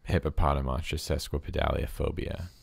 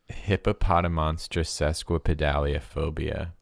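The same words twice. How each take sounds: First: It is said at normal speed. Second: It is said slowly.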